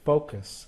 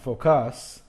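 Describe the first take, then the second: First: The stress is on the first syllable. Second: The stress is on the second syllable. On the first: The speaker calls it right. "the last syllable is not emphasized" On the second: The speaker calls it wrong. "it's not focus"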